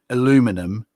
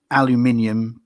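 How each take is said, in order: First: The word is said with an American pronunciation. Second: The word is said with a British pronunciation. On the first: "the Americans say aluminum" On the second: "we say aluminium"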